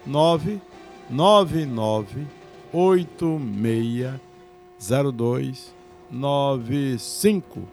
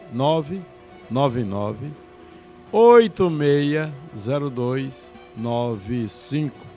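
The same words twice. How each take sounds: First: The number is said slowly. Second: The number is said fast.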